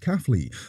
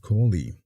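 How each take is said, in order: First: The first syllable sounds like 'caff'. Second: The first syllable sounds like 'core'. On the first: The speaker calls it right. "the factory was pronounced as Caffley" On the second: The speaker calls it wrong. "some people mispronounce it as Corley"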